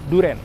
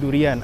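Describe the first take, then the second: First: It is said with two syllables, ending -ren. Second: It is said with three syllables, ending -ian. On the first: This is how people usually say it in everyday speech. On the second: This is the standard form of the word.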